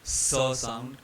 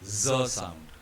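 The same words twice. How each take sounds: First: "S" as a hissed "suh"; hissing S. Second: "Z" as a voiced, buzzed "zuh"; buzzing Z. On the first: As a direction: hiss the "S" before "sound". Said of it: "indicates a hissing S sound". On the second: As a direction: buzz the "Z" before "sound". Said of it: "will have a buzzing". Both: Shown as a demonstration.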